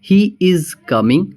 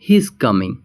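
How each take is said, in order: First: He is is said as two full words. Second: He is is contracted into one syllable. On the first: "next है हमारा" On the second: "हम contraction use करेंगे"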